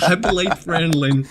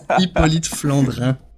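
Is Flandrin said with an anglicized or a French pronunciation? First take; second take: anglicized; French. First: Flandrin has a plain R and no nasal ending. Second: Flandrin has a French R and nasal ending. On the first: The speaker calls it wrong. "No, it's not Hippolyte Flandrin" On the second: The speaker calls it right. "You have to do the R and the un"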